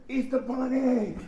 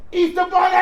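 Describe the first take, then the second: First: Lightly called out, drawn out slowly; drivers calling out. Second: Put-on loud high shout of excited kids; kids yelling. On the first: Retold or imitated. Drivers passing by tease the sweaty bunny, mild drawn-out call. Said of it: "beeping the horn". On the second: Kids in the park spot the Easter Bunny, loud excited shout. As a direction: yell it like a crowd of kids spotting him. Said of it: "this is all I can hear".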